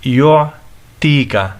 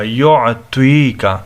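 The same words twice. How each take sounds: First: یعطیکا with a thin "t" in place of the heavy one; wrong light t. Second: یعطیکا with a thick, full-mouthed "tw" sound; heavy emphatic t. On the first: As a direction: say یعطیکا as "yu'teeka" with a light tongue-tip t. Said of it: "توا کو تا پڑھتے ہیں، جو کہ غلط ہے". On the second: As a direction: say یعطیکا slowly with a heavy Arabic taa. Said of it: "توا موٹا کر کے پڑھنا ہوگا". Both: Shown as a demonstration.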